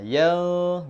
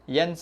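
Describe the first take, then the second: First: The n sound is hidden in a nasal hum. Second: The n sound is pronounced clearly and fully. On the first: The speaker calls it right. "yan gitu" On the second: The speaker calls it wrong. "Yan salah"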